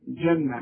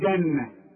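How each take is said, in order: First: The first consonant is a soft 'j' sound. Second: The first consonant is a hard 'g' sound. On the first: The speaker calls it right. "كل جيم في القرآن لابد انها تعطش" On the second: The speaker calls it wrong. "ما تقولش بقى جنة"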